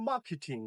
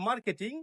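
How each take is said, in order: First: "মার্কেটিং" as MAA-ke-ting, silent r; correct pronunciation. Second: "মার্কেটিং" as mar-ke-ting with r sounded; common mispronunciation. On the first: Teacher models "মার্কেটিং" correctly as MAA-ke-ting. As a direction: drop the r in "মার্কেটিং", falling tune. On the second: Teacher shows learners' reading, "মার্কেটিং" mispronounced with the r. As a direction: roll the r in "মার্কেটিং". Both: Shown as a demonstration. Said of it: "সঠিক আইপিএল sound".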